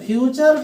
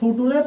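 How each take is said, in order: First: It is pronounced fyoocher with a ch sound. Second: It is read letter by letter as footooray. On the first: The speaker calls it right. "इसको पढ़ना क्या है? फ्यूचर tense." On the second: The speaker calls it wrong. "कुछ लोग इसको फुटुरे पढ़ते हैं, ठीक है, जो कि गलत है।"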